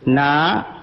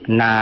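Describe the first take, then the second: First: The syllable is said with a rising pitch. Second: The syllable is said on a low pitch. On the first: "untuk naik" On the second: "di bawah"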